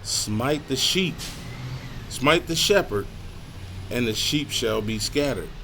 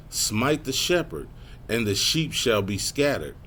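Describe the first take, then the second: First: Slow, raised, emphatic verse with pauses. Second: Said in the usual way. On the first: Shown as a demonstration. Preacher repeating the verse on the shepherd, slowed and emphatic. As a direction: drive each phrase home, pausing between them. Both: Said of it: "Slow that one down".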